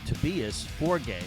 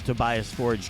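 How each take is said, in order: First: The name is said in its original, non-American way. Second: The name is said in an Americanized way. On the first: This is how he himself says his name. "actually pronounces his name" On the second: This is the easier version he uses for Americans. "easier here in the United States for Americans to pronounce it that way"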